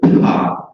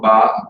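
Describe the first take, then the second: First: The p is released with a puff of air. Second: The p is released without a puff of air. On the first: "you hear that aspiration" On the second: "you're not getting this puff of air and this aspiration"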